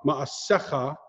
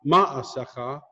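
First: "Ma'asecha" stressed on the second-to-last syllable; correct syllable stress. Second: "ma'asecha" stressed on the first syllable; wrong syllable stress. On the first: Teacher showing Hebrew accent, "Ma'asecha" stressed on "se". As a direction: lean on the "se" in "Ma'asecha". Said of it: "second to last syllable". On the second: Teacher showing the mistake, "ma'asecha" with first-syllable stress. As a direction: hit the opening "ma" of "ma'asecha". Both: Shown as a demonstration.

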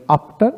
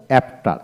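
First: আফটার with open "aa", "aaf-tar"; preferred pronunciation. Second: অ্যাফটার with a front "ae", "aef-tar"; rejected pronunciation. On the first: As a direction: say আফটার starting with "ah". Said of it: "আফটার বলি". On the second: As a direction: say অ্যাফটার starting like "apple". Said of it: "অ্যাফটার কখনো আমরা বলি না". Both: Shown as a demonstration.

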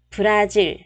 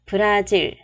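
Both takes have the same delivery.

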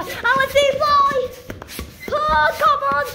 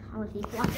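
First: Exasperated whine. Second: Very soft, low murmur; low mumble. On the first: Child urging a balloon that won't fly, exasperated high cry. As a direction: plead with rising impatience. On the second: Child wanting the balloon to fly, murmuring low. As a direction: say it under your breath. First of escalating repeats. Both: Real, not acted.

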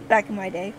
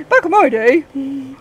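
First: Said in the usual way. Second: Put-on slow, creaky old lady. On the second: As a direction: drag it out like a granny. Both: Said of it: "I sound like an old lady".

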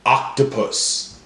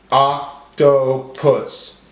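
First: Said in the usual way. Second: Oc... to... pus, very slow; broken into syllables. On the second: Shown as a demonstration. Teacher helping class count syllables, slowly syllable by syllable. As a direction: separate each syllable with a gap. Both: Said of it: "break up our words into syllables".

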